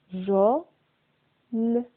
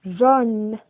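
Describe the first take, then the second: First: "Jaune" split as jau, long pause, ne; broken into sounds. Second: Said in the usual way. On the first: Shown as a demonstration. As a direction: sound out "Jaune" in two detached pieces. (« Jaune » découpé : jau, puis ne) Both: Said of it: "C'est la syllabe".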